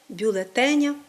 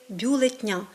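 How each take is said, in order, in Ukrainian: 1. Середній голосний зберігається в слові. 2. Середній голосний випадає зі слова. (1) "правильно говорити" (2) "хоча досить часто ми чуємо «бюлетнів», «бюлетня». Такі форми є неправильними"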